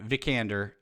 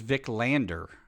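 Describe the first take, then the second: First: The name has no L sound before 'ander'. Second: The name has an L sound before 'ander'. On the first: This is how the other person said the name. The speaker calls it right. "you said uh" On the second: This is how the speaker wrongly believed the name went. The speaker calls it wrong. "I thought her name was Vic Lander"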